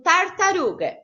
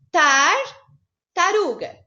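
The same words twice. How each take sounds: First: Said in the usual way. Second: Tartaruga said very slowly, split into two parts; syllable-split tartaruga. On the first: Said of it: "Por exemplo". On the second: Shown as a demonstration. Teacher showing children how to split tartaruga, slowly. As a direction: drag out Tartaruga with a pause at the split. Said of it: "Separa em duas".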